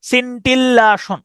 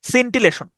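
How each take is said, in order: First: "scintillaton" as sin-till-AA-shon, higher and stretched; "scintillaton" with doubled l and open aa; old mispronunciation. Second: Said in the usual way. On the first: Shown as a demonstration. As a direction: say "scintillaton" with a long "laa", not "lay". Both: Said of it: "আমি এভাবে উচ্চারণ করতাম".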